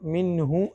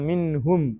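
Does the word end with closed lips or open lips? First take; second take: open lips; closed lips. First: The lips stay open at the end. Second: The lips close fully at the end. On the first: The speaker calls it wrong. "ചുണ്ട് പൂർണ്ണമായിട്ട് അടഞ്ഞില്ല" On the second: The speaker calls it right. "മിൻഹും ഫിറാറൻ എന്നാണ്"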